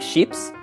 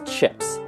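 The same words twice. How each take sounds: First: It is said with a French pronunciation. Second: It is said with an English pronunciation. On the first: "putting a French pronunciation to it" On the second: "the English word chips"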